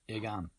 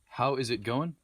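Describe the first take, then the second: First: The words are squashed into two short syllables. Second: Every word is said clearly in full.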